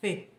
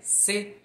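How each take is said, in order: First: The syllable begins with a tongue-between-teeth th sound. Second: The syllable begins with a plain s sound. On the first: "eles falam Fe" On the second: "em vez deles falarem C"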